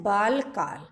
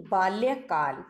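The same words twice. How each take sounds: First: बालकाल read as misspelt, baal-kaal with no y; the wrong form बालकाल, plain baal then kaal; बालकाल without the half l and y; wrong word read out. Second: बाल्यकाल with half l joined to ya: baalya-kaal; बाल्यकाल, baal-ya-kaal with the y sounded; correct form. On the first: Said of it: "बालकाल नहीं होता". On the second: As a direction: say बाल्यकाल with a clear l-ya cluster. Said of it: "यहाँ पर ल half होगा और य का". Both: Shown as a demonstration.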